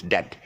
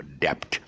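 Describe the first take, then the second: First: "debt" as DET; silent B. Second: "debt" as DEPT; B sounded. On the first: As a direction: say "debt" to rhyme with get. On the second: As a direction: mistaken P sound before the T in "debt". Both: Shown as a demonstration. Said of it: "It's not, it's debt".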